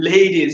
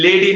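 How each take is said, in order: First: লেডিজ with gliding ei, "lay-deez"; লেডিজ said as English LAY-deez; correct diphthong. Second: লেডি with a pure e, no glide; unglided first vowel in লেডি; wrong vowel. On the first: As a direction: stretch the first vowel of লেডিজ from e to i. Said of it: "এটা হবে লেডিজ". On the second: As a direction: say লেডি with Bengali plain e. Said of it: "লেডি না, এটা হবে লেডিজ". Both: Shown as a demonstration.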